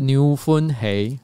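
It is said in a Cantonese style.

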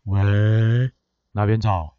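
It sounds sleepy, like just woken up.

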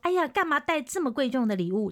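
It is said in an exaggerated, emotional tone.

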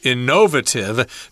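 It is said the British way.

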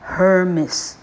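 The name is said with a Taiwanese accent. "台客Hermes 啊，那是台客发音"

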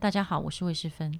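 It sounds like a composed professional voice.

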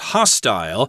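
It is said with a British pronunciation.

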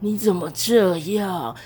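It is said in a rough, smoky voice.

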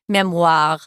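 It is said with a French pronunciation.

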